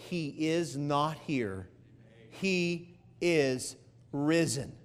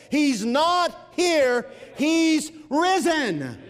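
First: Slow and much softer, lower, almost reverent; hushed awe. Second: Slow, ringing and higher; triumphant proclamation. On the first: Preacher quoting the angel to the women, hushed and slow. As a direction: let the angel's news fall softly, slowly. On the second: Preacher proclaiming the angel's words to the church, slow and ringing. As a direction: announce it like the news of the age. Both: Acted.

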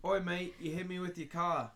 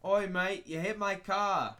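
First: Mock Australian accent. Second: Higher, louder mock Australian; Australian accent. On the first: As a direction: put on a rough Australian accent. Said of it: "let's start with Australian". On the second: Shown as a demonstration. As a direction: show off an Australian accent with gusto. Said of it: "Now listen to how it should be".

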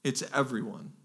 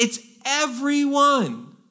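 First: Soft, falling "everyone"; quiet restatement. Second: "everyone" drawn out and pitched very high; stress on EVERYONE. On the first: Preacher assuring the congregation it covers all, quiet "everyone". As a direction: drop "everyone" down softly, as settled fact. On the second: Preacher defining the Greek word, hammering "everyone". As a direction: stretch out "everyone" slowly, high, then let it fall. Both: Real, not acted.

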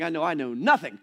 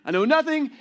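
First: Said in the usual way. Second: "nothing" hit higher and louder; emphatic repeat. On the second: Shown as a demonstration. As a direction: punch "nothing" as a rueful admission.

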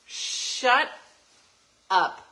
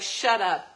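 First: "Shut" and "up" split by a long pause, "up" louder; slow emphatic shut up. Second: Said in the usual way. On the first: Retold or imitated. Mom telling congratulating people to stop, slow separated words. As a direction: drag out "Shut ... up" with a pause between. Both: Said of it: "I'd be like".

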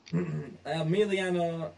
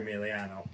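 First: Catching on the name with a rough throat; croaky, stumbling over the name; frog in throat. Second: Said in the usual way. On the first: Real, not acted. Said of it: "I got a frog in my throat". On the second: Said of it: "I am sorry".

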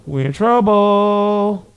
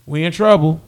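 First: Drawn-out lament. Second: Said in the usual way. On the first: Real, not acted.

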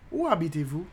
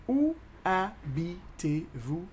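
First: Said in the usual way. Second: Very slow, separated syllables; drawn-out teaching demo. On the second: Shown as a demonstration. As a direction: split "Où habitez-vous" into single beats. Teacher slows French question.

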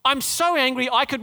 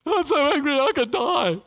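First: Whiny, higher angry quote; sulky Jonah. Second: High, loud whiny tantrum; tantrum like a three-year-old. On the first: Preacher voicing Jonah's tantrum to the congregation. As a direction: play the sulking child prophet. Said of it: "do you remember what he says". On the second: Preacher mimicking Jonah as a sulking three-year-old. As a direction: pout it out like a sulking toddler. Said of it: "three-year-old". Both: Retold or imitated.

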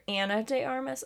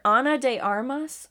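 First: "Anna" with a flat first vowel, as in "can"; short "a" at the start of "Anna". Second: "Ana" with a broad first vowel, AH-na; Ana with open "ah". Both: Shown as a demonstration. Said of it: "either Ana de Armas or Anna de Armas".

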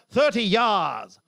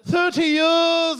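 First: "years" broadened to sound like "yars", falling; accent attempt on YEARS. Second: "years" with a higher, stretched vowel; accent attempt on YEARS. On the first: Comedian retrying local accent, "years" as falling "yars". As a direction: open "years" out into a slow "yars". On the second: Comedian trying local accent, "years" high and stretched. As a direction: draw out "years" on a raised pitch. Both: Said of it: "I've still not picked a local accent".

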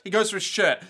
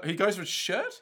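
First: Firm falling statement on "shirt"; confirming. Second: Rising, unsure question on "shirt". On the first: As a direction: state it as settled, dropping on "shirt". Settles the wording after doubting it. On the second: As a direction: lift "shirt" at the end as if doubting the word. Doubting his wording, then confirming it. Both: Real, not acted.

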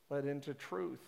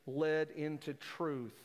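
First: Said in the usual way. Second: "Led into truth" drawn out slowly, each word weighted; slow emphatic quote. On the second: Shown as a demonstration. Pastor quoting John to the church, "Led into truth" slow and weighted.

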